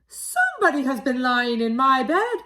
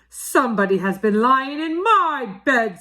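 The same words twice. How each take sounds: First: It is said in a tiny, small voice. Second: It is said in a big, deep voice. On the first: The smallest bear is speaking. "in his wee little voice" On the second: The biggest bear is speaking. "in his great big voice"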